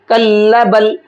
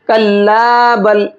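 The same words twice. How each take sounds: First: The alif vowel in kalla is cut short. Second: The alif vowel in kalla is lengthened. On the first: The speaker calls it wrong. "लोग ज़्यादातर यहाँ पढ़ने में गलती करते हैं। कैसे पढ़ते हैं?" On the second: The speaker calls it right. "एक अलिफ के बराबर खींचना होता है। कल्ला बल इस तरह से।"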